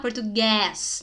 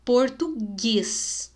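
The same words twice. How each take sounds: First: "português" ending on an open eh, like guéis; wrong open vowel. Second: "português" very slow, closed e on the strong last syllable; stressed final syllable. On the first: Teacher showing what to avoid, mistaken open vowel. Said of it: "não é pra falar". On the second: Teacher showing the strong syllable, deliberate slow stress. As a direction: draw out "português", landing on gués. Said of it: "mostrar a sílaba forte da palavra". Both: Shown as a demonstration.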